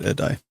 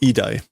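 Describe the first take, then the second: First: The word begins with an 'eh' vowel. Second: The word begins with an 'ee' vowel. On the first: The speaker calls it wrong. "My pronunciations aren't correct" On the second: The speaker calls it right. "idai, not edai"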